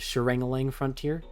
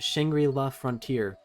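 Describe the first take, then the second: First: The name is said as Sharangalang. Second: The name is said as Shangri-La. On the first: The speaker calls it wrong. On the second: The speaker calls it right.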